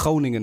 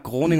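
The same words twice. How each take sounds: First: Groningen with a throaty Dutch G; Dutch pronunciation. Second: Said in the usual way. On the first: Shown as a demonstration. Friend correcting their own German Groningen, Dutch pronunciation. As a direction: say Groningen the Dutch way, scraped G at the start. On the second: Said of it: "Nach Groningen meine ich natürlich".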